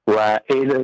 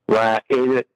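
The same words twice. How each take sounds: The two takes are said the same way.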